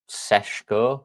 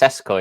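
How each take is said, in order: First: The name is said with a non-English pronunciation. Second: The name is said the plain English way. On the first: "but it's Seshko, I think" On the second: "if you're English, like Tesco's with a S"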